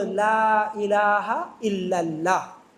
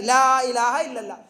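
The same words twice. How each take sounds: First: Slow, lower, syllable by syllable; teaching a child slowly. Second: Said in the usual way. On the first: Retold or imitated. Mother teaching her little son the kalima, slow and gentle. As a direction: spell it out gently for a small child. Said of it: "क्या बेटा बोलो". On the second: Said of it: "छोटे बच्चे को सिखा रही".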